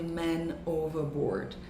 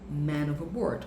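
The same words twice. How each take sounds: First: The two words are said separately. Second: The two words run together as one. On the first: The speaker calls it wrong. "não fale man overboard" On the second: The speaker calls it right. "como se fosse uma única palavra"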